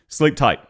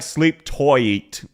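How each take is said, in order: First: Tight is said as one short syllable. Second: Tight is drawn out with odd emphasis.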